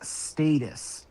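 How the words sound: It is said with a British pronunciation. "they pronounce it as status"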